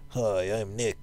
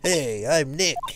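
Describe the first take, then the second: First: It is said quietly. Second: It is said loudly.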